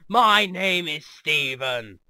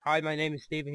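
First: Slow, drawn-out, louder self-announcement; hammed-up grand introduction; mock booming introduction. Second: Said in the usual way. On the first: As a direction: boom the name out, stretching it. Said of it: "he just goes". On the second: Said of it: "instead of just like".

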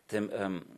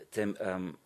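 No difference in how they are said.

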